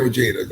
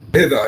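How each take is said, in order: First: The name is said with Americanized English pronunciation. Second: The name is said with Spanish pronunciation. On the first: This is the form adapted for American listeners. "I say Ojeda ... Ojeda was just more Americanized" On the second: This is the original form of the name. "it's really pronounced Ojeda, Ojeda in Spanish"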